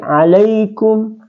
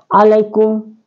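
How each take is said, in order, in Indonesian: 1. Bunyi 'ai' dibaca panjang. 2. Bunyi 'ai' dibaca pendek. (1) "huruf lin itu dibaca dua harakat panjangnya" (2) "bukan alaikum"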